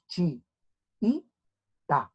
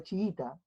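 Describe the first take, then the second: First: "Chi y ta" as three isolated beats, chi-i-ta; long pause after each syllable of "Chi y ta". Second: Said in the usual way. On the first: Shown as a demonstration. ("Chi y ta" separado en sílabas, chi-i-ta) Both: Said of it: "¿Cómo se separa?".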